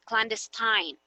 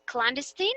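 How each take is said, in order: First: Clandestine ending in a long "tine"; alternative pronunciation. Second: Clandestine ending in a short "tin"; first pronunciation option. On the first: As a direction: say clandestine with the last syllable rhyming with "fine". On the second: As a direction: say clandestine as "klan-DES-tin", offered as a question. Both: Shown as a demonstration. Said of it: "how to pronounce clandestine".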